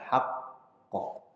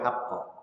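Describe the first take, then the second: First: The doubled q is held before release. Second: The doubled q is said straight through without holding. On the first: The speaker calls it right. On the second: The speaker calls it wrong. "nggak boleh langsung"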